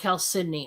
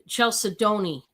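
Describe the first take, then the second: First: The word begins with a 'k' sound. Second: The word begins with a 'ch' sound. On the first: The speaker calls it right. "But it's actually pronounced" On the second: The speaker calls it wrong. "it's spelt like you would pronounce it"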